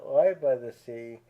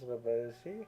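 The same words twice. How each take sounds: First: 'Live' is said with the vowel of 'five'. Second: 'Live' is said with the vowel of 'give'. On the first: It names a live concert performance. The speaker calls it wrong. "I had pronounced it Live by the Sea" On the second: It means to reside by the sea. The speaker calls it right. "According to the Wikipedia, it is Live by the Sea"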